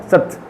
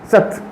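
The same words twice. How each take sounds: Both takes have the same delivery.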